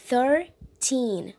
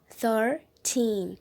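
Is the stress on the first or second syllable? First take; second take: second; second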